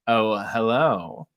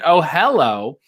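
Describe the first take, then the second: First: It is said in a sultry voice. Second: It is said in a plain voice.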